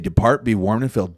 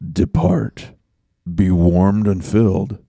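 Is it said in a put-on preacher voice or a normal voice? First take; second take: normal voice; preacher voice. First: It is said in his normal voice. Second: It is said in a put-on preacher voice.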